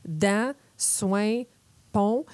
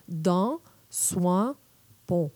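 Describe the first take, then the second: First: "dents, soin, pont" with strong Québécois nasal vowels. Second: "dents, soin, pont" said the France French way, slowly; French pronunciation. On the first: Demonstrating Québec French nasal vowels to listeners, nasal and drawn. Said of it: "On peut entendre que". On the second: Imitating the French for listeners, slow and fronted. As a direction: mimic a Parisian "soin" with a more open vowel. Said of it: "les Français diraient". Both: Shown as a demonstration.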